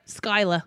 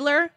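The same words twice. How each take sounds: First: "Skyla" ending in "-ah", no R; dropped R. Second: Said in the usual way. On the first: Shown as a demonstration. Showing how family says the name, "Skyla" without its R. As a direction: drop the final R in "Skyla". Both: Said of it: "they don't use A R when it's needed".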